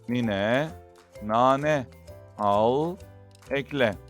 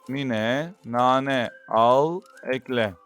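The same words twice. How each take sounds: First: The words are read at a normal pace. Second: The words are read at a faster pace. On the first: "Metnimizi normal bir şekilde okuyalım" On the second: "Şimdi ise metnimizi daha hızlı bir şekilde okuyalım"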